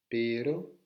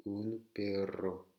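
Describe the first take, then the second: First: PERO with one quick tap, rising; R simple. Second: Slow PERRO with a long rolled RR; double R roulé. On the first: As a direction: model pero without any trill. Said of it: "un simple R". (pero au R simple, montant) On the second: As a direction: hold the trill in perro. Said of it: "s'il y a deux R". (perro au R longuement roulé) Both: Shown as a demonstration.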